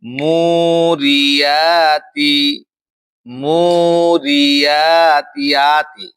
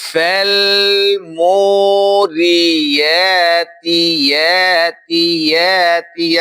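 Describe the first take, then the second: First: Slow chanted "মুরিয়াতি" with the ya softened toward a hamza; hamza-like ya, wrongly. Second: Slow chanted "মোরিয়াতি" with a full, clear y glide; true ya articulation. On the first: Teacher shows the mistake, "মুরিয়াতি" chanted with hamza-like ya. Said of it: "এটা ভুল উচ্চারণ". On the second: Teacher corrects the mistake, "মোরিয়াতি" chanted with a true ya. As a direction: form the ya of "ইয়াতি" at its proper point, held long. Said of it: "এর মাখরাজে যেতে হবে". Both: Shown as a demonstration.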